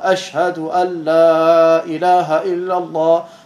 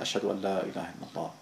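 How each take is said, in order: First: It is said loudly, at normal volume. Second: It is said quietly, barely audible. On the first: Everyone is meant to hear it. "Und dann sagt man laut ganz normal" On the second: Only the speaker is meant to hear it. "dann sagt man leise für sich selbst, sodass man sich nur selbst hören kann"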